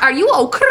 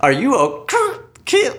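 First: "Are" with a trilled r, high and playful; a quick rolled r on "Are". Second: "Are" with a trilled r, much higher and slow; a failed attempt at rolling the r in "Are"; rolled r. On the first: Pretend. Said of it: "make that noise". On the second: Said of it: "I wanna try to make that noise".

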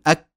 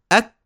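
First: "أك" shut abruptly on the k; short "أك", sound trapped at the closure; strong stopped kaf. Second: "أك" stopped, then released in a light puff; short "أك" with a delayed breathy k release; kaf with hams. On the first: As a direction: block the k of "أك" without trailing breath. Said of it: "ولا حاسين إن في انزعاج". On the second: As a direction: close the k of "أك", then let breath escape. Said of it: "يأتون بالهمس". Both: Shown as a demonstration.

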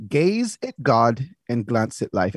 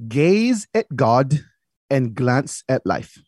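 First: Said in the usual way. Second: Put-on very slow saying in dad's Fermin accent. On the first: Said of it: "He would say". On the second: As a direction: quote dad's motto slowly, lightly in his Fermin accent. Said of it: "throw my Fermin accent on".

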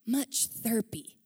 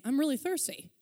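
First: "thirpy" said slowly, with a p in place of the st; drawn-out "Much thirpy", lips closing on the p; mispronounced thirsty. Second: "thirsty" said clearly with its st; plain "I'm really thirsty", the right way; correct thirsty. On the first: Retold or imitated. Friend imitating the Syrian mother's "thirpy" for thirsty. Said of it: "But thirpy is good". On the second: Shown as a demonstration. Preacher gives the correct "thirsty" the mother meant. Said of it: "she was trying to say".

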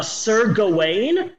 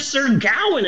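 First: "Gawain" said guh-WAYN; usual pronunciation of Gawain. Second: "Gawain" said GOW-un, rhyming with cow; corrected pronunciation of Gawain. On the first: Telling what shocked them, "Gawain" as guh-WAYN. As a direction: stress the long second syllable of "Gawain", guh-WAYN. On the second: Repeating the surprising correction, "Gawain" as GOW-un. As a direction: stress the first syllable of "Gawain", GOW-un. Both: Shown as a demonstration. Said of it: "apparently it's pronounced Gowan".

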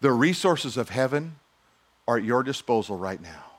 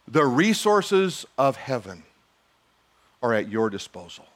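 First: "resources" lifted on a rise, then falling; refrain with rise. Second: "resources" drawn out slowly, then falling; slow refrain. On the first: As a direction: repeat the refrain, pushing it. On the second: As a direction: let the refrain land. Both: Shown as a demonstration. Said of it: "repeated refrain".

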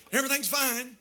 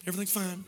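First: Said in the usual way. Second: Quiet mock-sulky "everything's fine"; hurt wife brushing off her husband. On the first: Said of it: "That means everything's not fine". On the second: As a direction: say "everything's fine" softly, meaning it isn't. Wife sulking after a tiff.

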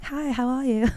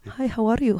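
First: Mock London accent, higher and soft. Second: Mock Icelandic accent, higher pitched. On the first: Imagining coming home from London, mock London accent. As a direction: put on an affected London greeting. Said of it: "imagine if I lived in London". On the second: Mimicking a guy back from Iceland, affected Icelandic accent. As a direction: imitate an affected Icelandic greeting. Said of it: "lived in Iceland for a while".

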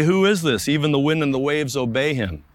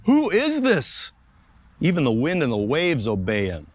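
First: Said in the usual way. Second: Terrified disciples. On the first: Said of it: "They say". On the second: Acted. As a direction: voice the frightened disciples' amazement. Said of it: "And they were terrified".

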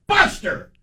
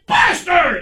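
First: Sharp high call of the dog's name; mild mock scold; dad scolding the dog. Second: Angry dad yells the dog's name; yelling at the dog. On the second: Retold or imitated. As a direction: bark the dog's name across the dinner table. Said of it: "he's yelling at the dog".

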